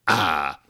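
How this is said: The final R is dropped.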